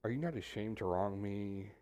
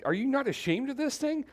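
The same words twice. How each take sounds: First: Softer, low and restrained; quiet, calm take. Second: Much higher, pitched-up exasperated demand; raised voice. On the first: Preacher trying Job's question the calm way, softly. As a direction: ask it gently, almost under your breath. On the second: Preacher voicing Job to his friends with a raised, exasperated voice. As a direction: push it up into a near-shout. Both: Shown as a demonstration. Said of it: "let me try to do it two ways".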